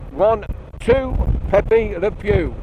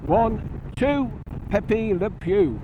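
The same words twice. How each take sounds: First: Spoken with the helmet visor fully open. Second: Spoken with the helmet visor closed down. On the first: "Screen up, visor fully open" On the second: "Visor down"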